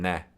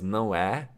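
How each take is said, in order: First: It is squeezed into one short syllable. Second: It is said as two separate syllables. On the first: "or even né" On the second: "It's not always no é"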